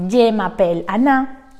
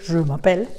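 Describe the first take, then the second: First: "Je" said with a flat Spanish E, like "ye"; "Je m'appelle Anna" read with Spanish vowels; "Je" as a plain Spanish E sound; Spanish-accented French. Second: "je" with a rounded French vowel, "zhuh"; "je m'appelle" said the French way; proper French "je m'appelle"; correct French. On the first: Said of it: "yo decía". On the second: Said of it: "au lieu de". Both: Shown as a demonstration.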